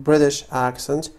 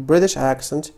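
Both takes have the same delivery.

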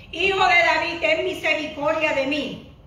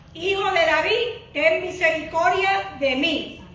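The two takes are said the same way.

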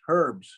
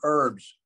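First: The h at the start is pronounced. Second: The h at the start is silent. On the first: This is the English way of saying it. "If you go to England, they call them herbs with an H" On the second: This is the American way of saying it. "in the United States, we call them herbs"

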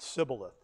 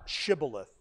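First: The word begins with an 's' sound. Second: The word begins with an 'sh' sound. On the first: The speaker is an Ephraimite. The speaker calls it wrong. "They didn't say the SH sound very clearly" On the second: The speaker is from Gilead. The speaker calls it right. "it didn't come out Shibboleth"

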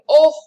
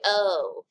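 First: The vowel is open with strongly shaped lips. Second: The vowel sounds like a plain English oh. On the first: The speaker calls it right. "It has to be oh" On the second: The speaker calls it wrong. "You can't just say oh in French"

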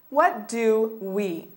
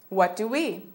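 First: The phrase is said at a slower pace. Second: The phrase is said at a faster pace.

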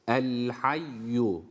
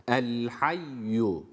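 No difference in how they are said.

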